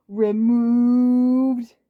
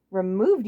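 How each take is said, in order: First: Loud, high stretched "removed"; punchline emphasis. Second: Said in the usual way. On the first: Acted. Waluigi punning on Wario's word, loud stretched "removed". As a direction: land the joke on "removed".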